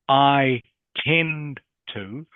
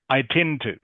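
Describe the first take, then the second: First: Said slowly, each word clear and separate. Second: Said quickly, the words run together as one. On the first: "saying the individual words very slowly and clearly" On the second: "all this becomes like one word"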